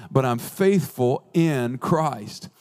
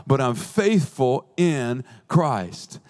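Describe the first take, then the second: No difference in how they are said.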